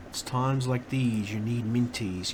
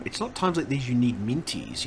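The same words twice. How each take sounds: First: Slow, mock advert announcer; ad slogan voice. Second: Said in the usual way. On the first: Streamer quoting an old candy advert, slow mock ad read. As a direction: drawl it out like a TV jingle line.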